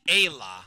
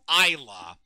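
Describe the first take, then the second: First: The name is said with the usual pronunciation. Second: The name is said with the musical's pronunciation. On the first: This is how the name is normally said. The speaker calls it right. "It's clearly Ayla" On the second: This is how the musical says the name. The speaker calls it wrong. "they pronounce this character's name as Ayla"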